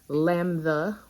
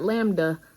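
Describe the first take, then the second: First: It is said with a Greek pronunciation. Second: It is said with an English pronunciation. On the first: The speaker calls it right. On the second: The speaker calls it wrong.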